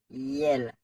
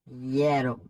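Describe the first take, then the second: First: The word ends in a consonant sound. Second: The word ends in a vowel sound. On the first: The speaker calls it wrong. "toujours mal prononcé, yo dit yel" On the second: The speaker calls it right. "c'est pas yel, c'est yellow"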